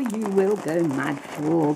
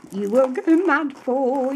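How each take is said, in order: First: Said in the usual way. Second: High, bright sing-song "you will go mad for"; excited. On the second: Real, not acted. Crafter teasing viewers about her favourite fabric, excited. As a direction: tease the viewer with delight. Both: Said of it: "I was doing a little dance".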